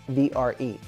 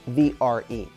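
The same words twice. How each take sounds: The two takes are said the same way.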